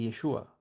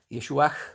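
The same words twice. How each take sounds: First: The word ends in a vowel with no h. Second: The word ends with an audible h sound. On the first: "escucha solamente Yeshua, porque el Hei final siempre es mudo" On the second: "con el H al final"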